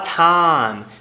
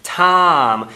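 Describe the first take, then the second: No difference in how they are said.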